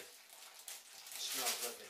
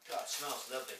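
First: Slow, savouring repeat. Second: Said in the usual way. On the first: Real, not acted. Pipe smoker savours the tobacco aroma, slow and savouring. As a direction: let it linger, slowly.

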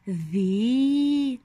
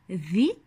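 First: ذي with the i held long; long, sustained ذي; long vowel. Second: ذي cut short, a brief i; short ذي, not held; short vowel. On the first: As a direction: stretch the vowel of ذي into a long madd. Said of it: "ما هو المد المناسب". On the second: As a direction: say ذي quickly with a short kasra vowel. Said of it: "هنا على الذال كسرة". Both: Shown as a demonstration.

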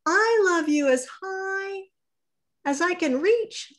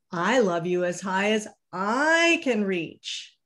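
First: High and reaching, straining upward; little hare stretching up, very high pitch. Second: Said in the usual way. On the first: Acted. Little hare to his father, high straining voice. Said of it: "said Little Nut Brown Hare". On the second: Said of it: "said Big Nut Brown Hare".

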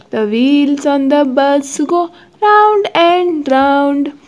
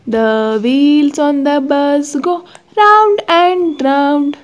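The two takes are said the same way.

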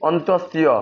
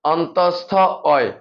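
First: অন্তস্থীয় run together as on-tos-ti-o; one-word folk name অন্তস্থীয়; common mispronunciation. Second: অন্তস্থ অয় split by a pause; careful on-tos-tho, oy in অন্তস্থ অয়; correct letter name. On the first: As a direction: say অন্তস্থীয় with a ti-o ending. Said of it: "অনেকে উচ্চারণ করে কি". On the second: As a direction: say অন্তস্থ, then a separate oy for অয়. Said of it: "এটা সঠিক উচ্চারণ হচ্ছে যে". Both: Shown as a demonstration.

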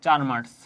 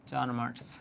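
First: চার marks, চার stressed firmly and a bit louder; emphatic answer. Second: চার marks repeated softer, dropping away. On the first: Teacher answering students' question, firm stress on চার. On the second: Teacher repeating the answer to students, quiet echo. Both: Shown as a demonstration. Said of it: "তুমি marks পাচ্ছ কত?".

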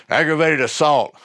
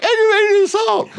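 First: Said in the usual way. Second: Timid squeak. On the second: Shown as a demonstration. Scared teen telling the biker his charge, laughing squeak. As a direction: squeak it out like a frightened kid. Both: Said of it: "It probably sounded more like".

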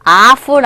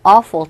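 First: "awful" said wrongly with an open "ah" first; mispronunciation demo. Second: "awful" with a rounded "aw" first; correct pronunciation demo. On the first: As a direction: say "awful" as AH-ful. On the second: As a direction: say "awful" as AW-ful, falling. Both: Shown as a demonstration. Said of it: "awful 아니에요".

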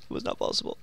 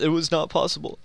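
First: Low, soft whisper of the same words; low, soft whispered repeat; whispered aside. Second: Said in the usual way. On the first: Pretend. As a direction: mutter it to yourself under your breath. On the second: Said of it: "repeated flat then whispered".

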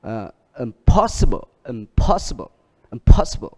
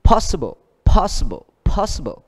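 First: "impossible" with the stress kept on pos; teacher contrasting "impossible" with "possible". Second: "possible" with pos hit hard and high; teacher drilling "possible", first syllable stressed. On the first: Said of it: "Thêm". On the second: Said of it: "ở chữ pos". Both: Shown as a demonstration.

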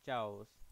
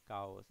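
First: चाओस said with a ch sound, like chair; चाओस starting with च, as in chai; चाओस, the mistaken ch start; wrong pronunciation. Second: काओस said with a hard k sound; काओस starting with क, not च; काओस, k as in kal; corrected pronunciation. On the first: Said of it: "sorry काओस". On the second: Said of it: "क उच्चारण करेंगे, च नहीं". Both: Shown as a demonstration.

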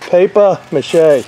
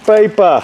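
First: Slow Boston "Paper mache", almost no R; Boston accent. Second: Boston "Paper", dropped R, said high; Boston accent. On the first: Roofer repeats it for viewers in a Boston accent. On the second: Roofer shows the camera how Boston says "Paper", Boston accent. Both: Shown as a demonstration. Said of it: "That's how they say it in Boston".

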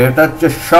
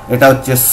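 First: "স" said as a hushing sho; palatal sh. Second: "স" said as a sharp so, no hush; dental s. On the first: Teacher contrasts SH with double S, "স" pronounced sho. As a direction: make the "স" a sh sound. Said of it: "তালব্য স". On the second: Teacher contrasts double S with SH, "স" pronounced so with plain s. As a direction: make the "স" a pure s sound. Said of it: "আর এইটা double এস". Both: Shown as a demonstration.

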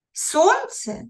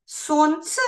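First: Сонце? said high, then falling; high questioning take. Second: Сонце? asked back with a rising tune; questioning rise. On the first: Teacher repeats Сонце? to show the stressed syllable, pitched high. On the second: Teacher demonstrates a word asked back, Сонце? rising. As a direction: repeat Сонце? as if you misheard it. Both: Shown as a demonstration. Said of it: "і перепитуєш".

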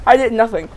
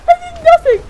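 First: Said in the usual way. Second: Very high, loud shriek of innocence; screamed denial. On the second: Acted. Attacked dinosaur shrieks its innocence, very high and loud. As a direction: shriek that you did nothing.

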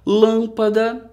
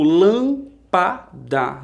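First: Said in the usual way. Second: "lampada" slowly, split into lam, pa, da; syllable by syllable. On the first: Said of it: "outras dois exemplos". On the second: Shown as a demonstration. Teacher showing pupils the division, "lampada" in three slow beats. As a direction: separate each syllable of "lampada", pausing between. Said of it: "eu faço aquela divisão".

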